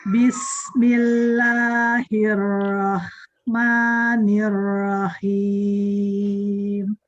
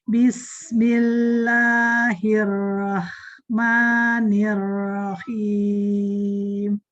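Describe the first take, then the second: No difference in how they are said.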